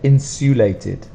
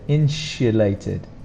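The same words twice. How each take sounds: First: The consonant after 'in' is a plain s sound. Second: The consonant after 'in' is a sh sound. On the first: "Some people might pronounce it" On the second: "There's a sh sound there"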